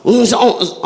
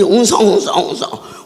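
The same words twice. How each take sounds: First: Louder crowd murmur. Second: Quick mock murmuring of a crowd. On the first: Retold or imitated. Preacher imitating the crowd growing restless, louder mock murmur. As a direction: murmur pushed louder, rising unrest. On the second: Preacher imitating the suspicious crowd, quick mock murmur. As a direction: rattle off the murmur fast. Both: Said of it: "사기다 웅성거릴 때".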